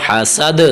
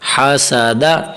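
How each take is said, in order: First: The word ends on a bare 'd' consonant. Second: The word ends with a short 'a' vowel. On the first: "जब वक्फ करेंगे तो दाल साकिन हो जाएगा" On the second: "जबरदा हासादा"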